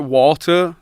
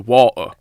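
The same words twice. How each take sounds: First: The T in the middle is clearly pronounced. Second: Said in a Bradford accent, without the T.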